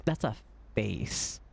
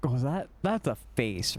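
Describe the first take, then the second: First: Slow down and press That's; slower stress on that's. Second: Said in the usual way. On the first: Real, not acted. Streamer insisting to chat it's no mask, slow stress on That's. Repeats face remark, stressed.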